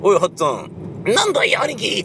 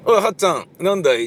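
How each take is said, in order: First: Over-the-top voice change between two characters; exaggerated character voices. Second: Rakugo dialogue in one unchanged voice; both speakers voiced alike, lightly raised; ракурс ракуго. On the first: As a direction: switch to a very high cartoonish voice for the reply. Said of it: "とかっていうようなことは絶対やらないでしょ". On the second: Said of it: "同じ声の出し方をする". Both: Shown as a demonstration.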